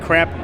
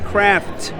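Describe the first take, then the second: First: The word is rushed and its ending sounds blurred. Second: The word is said slowly with every sound clear. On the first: The speaker calls it wrong. "every time Ken says it that fast, it sounds like" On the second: The speaker calls it right. "You have to s- enunciate"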